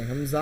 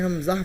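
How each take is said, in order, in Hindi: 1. स्वर लंबे खींचकर बोले जाते हैं। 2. स्वर छोटे और जल्दी बोले जाते हैं। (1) "हमज़ा नहीं, इसको खींचेंगे नहीं" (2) "हमज़ा पढ़ें"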